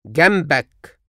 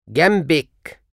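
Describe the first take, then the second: First: جنبك said gambak, ending in -ak; masculine you form. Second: جنبك said gambek, ending in -ek; feminine you form. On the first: Teacher drills the masculine form of next to you. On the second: Teacher drills the feminine form of next to you. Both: Shown as a demonstration.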